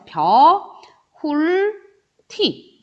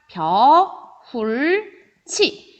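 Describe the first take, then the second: First: The last syllable starts with a t sound. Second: The last syllable starts with a ch sound. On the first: This is only the intermediate step. "이렇게 먼저 되고요" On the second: This is the actual final pronunciation. "요렇게 발음이 된다"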